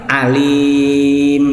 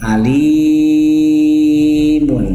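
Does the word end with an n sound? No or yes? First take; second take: no; yes. First: The word ends without an n sound. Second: The word ends with an n sound. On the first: The reader stops on this word. "nggak ada bacaan nunnya" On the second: The reading continues without stopping. "Ini tanwin"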